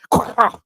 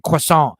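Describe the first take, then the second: First: "croissant" said the French way, kwah-SAHN with no final t. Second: "croissant" said the American way, kruh-SAHNT. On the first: Joking to chat about the true pronunciation, mock French. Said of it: "It's actually pronounced croissant". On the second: Joking to chat about how Americans say croissant, American pronunciation. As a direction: give "croissant" a plain American reading. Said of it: "we always pronounce it croissant". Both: Shown as a demonstration.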